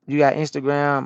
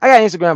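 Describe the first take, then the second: First: Said in the usual way. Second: Fires back high and loud; loud answer. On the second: Real, not acted. Trucker answering a viewer about Instagram, loud.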